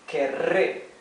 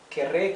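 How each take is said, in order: First: The rolled R is strongly drawn out. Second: The rolled R is short and relaxed. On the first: "I'm exaggerating it a bit" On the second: "later it comes a bit more natural"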